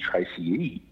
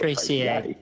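First: The name ends with an ee sound. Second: The name ends with an ay sound. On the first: The speaker calls it right. "it should be Tracy E" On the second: The speaker calls it wrong. "a lot of people call it Tracy A"

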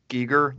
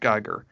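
First: The first syllable sounds like 'ghee'. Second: The first syllable sounds like 'guy'. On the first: The speaker calls it right. "I know that it's pronounced Giger" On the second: The speaker calls it wrong. "not Geiger"

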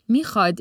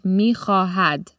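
First: The middle h sound is dropped. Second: The middle h sound is pronounced. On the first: This is the everyday spoken form. "mikhad is the colloquial way of saying the word" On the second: This is the written form. "In written Persian, it's mi-kha-had"

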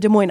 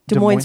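First: The S at the end of Des is silent. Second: The S at the end of Des is pronounced. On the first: This is the city in Iowa. "you do not" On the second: This is the town in Washington. "You pronounce the S"

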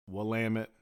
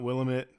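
First: The ending rhymes with 'damn it'. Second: The ending does not rhyme with 'damn it'. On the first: The speaker calls it right. "it's Willamette, damn it" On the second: The speaker calls it wrong. "It's not Willamette"

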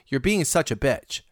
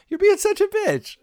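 First: It is said in a harsh, hostile tone. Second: It is said in a playful, teasing tone.

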